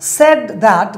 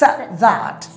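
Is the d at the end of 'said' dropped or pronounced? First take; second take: pronounced; dropped. First: The d at the end of said is pronounced. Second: The d at the end of said is dropped.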